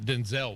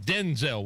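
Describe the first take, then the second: First: The stress is on the second syllable. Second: The stress is on the first syllable. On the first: The speaker calls it wrong. "not Denzel Washington" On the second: The speaker calls it right. "Denzel Washington, not Denzel Washington"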